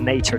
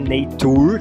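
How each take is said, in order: First: The middle consonant is a 'ch' sound. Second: The middle consonant is a plain 't' sound. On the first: The speaker calls it right. "ch, ch, ch, nature" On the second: The speaker calls it wrong. "a pronúncia não é nature, não é t"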